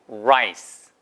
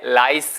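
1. r은 입술을 둥글게 해서 발음해요. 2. r은 평평한 한국식 소리예요. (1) "입술 동그랗게" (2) "절대 라이스 아니에요"

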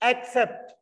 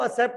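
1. इस शब्द में s से पहले k ध्वनि है। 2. यह शब्द s ध्वनि से शुरू होता है, k नहीं। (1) "पहले सी पे आपको क प्रोनाउंस करना है" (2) "एनु एक्सेप्ट नहीं बोलना"

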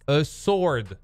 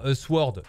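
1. Le w dans sword est muet. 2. Le w dans sword est prononcé. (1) "Mais le W ne se prononce pas" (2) "Et pas a sword"

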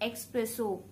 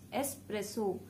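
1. शब्द में पहले स्वर के बाद 'ks' ध्वनि है। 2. शब्द में पहले स्वर के बाद 's' ध्वनि है। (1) "not expresso" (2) "The first one that I have for you is espresso"

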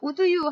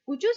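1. d와 you는 따로 발음합니다. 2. d가 you와 섞여서 j 소리로 나요. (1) "would you 하지 마시고요" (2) "d 다음에 you가 오면 you 발음해서"

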